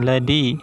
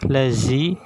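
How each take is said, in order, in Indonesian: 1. Konsonan tengahnya d yang ditahan. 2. Konsonan tengahnya z bergetar. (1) "bukan ladi" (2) "Jadi bukan lazi"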